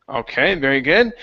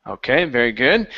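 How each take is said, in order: No difference in how they are said.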